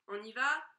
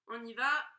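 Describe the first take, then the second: The two takes are said the same way.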